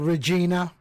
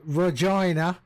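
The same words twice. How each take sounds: First: The name is said the American way. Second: The name is said the Canadian way.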